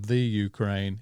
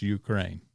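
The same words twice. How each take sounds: First: THE leaned on before Ukraine, said as THEE; stress on THE. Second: Said in the usual way. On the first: Shown as a demonstration. Host checks the country's name with guests, stressed THE. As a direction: punch the article THE in "the Ukraine". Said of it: "it's not the Ukraine". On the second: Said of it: "it's Ukraine".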